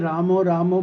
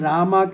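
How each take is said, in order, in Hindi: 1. शब्द का अंत 'o' स्वर से होता है। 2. शब्द का अंत 'a' स्वर से होता है। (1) "रामो रामो बोलते हैं" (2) "रामा की जगह में"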